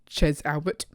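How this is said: The name is said with an English accent. "if you don't do the funky French accent"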